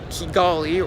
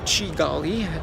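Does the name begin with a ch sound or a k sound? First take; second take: k sound; ch sound. First: The name begins with a hard k sound. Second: The name begins with a ch sound.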